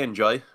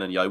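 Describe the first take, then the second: First: The middle consonant sounds like an English J. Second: The middle consonant sounds like a Y. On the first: The name is said the ordinary English way. "We could just say enjoy" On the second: The name is said the Swedish way. "The way they pronounce their J is, sounds a lot like a Y"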